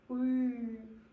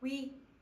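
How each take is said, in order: First: The vowel stays steady without any change in quality. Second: The vowel glides, changing quality as it is said. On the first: This is the standard monophthong pronunciation. "움직이지 않고 울, 울 이런 소리를 내는 게 원래 위와 외의 단모음의 발음" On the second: This is the permitted diphthong pronunciation. "발음을 하는 동안 여러분 모습이 바뀌어요"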